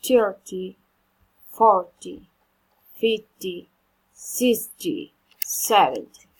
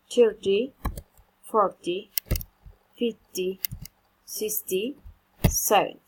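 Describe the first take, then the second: First: "Thirty, forty, fifty, sixty, seventy" louder, each word stressed on "thir", "for", "fif", "six", "se" with a falling end; teacher model. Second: Said in the usual way. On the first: Shown as a demonstration. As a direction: say each number firmly for pupils to copy.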